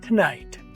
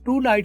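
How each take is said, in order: First: The vowel is reduced and linked to the next word. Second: The word 'to' is said fully and separately. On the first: The speaker calls it right. "टू को आपने टू पूरा नहीं बोलना" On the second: The speaker calls it wrong. "टू night की बजाय"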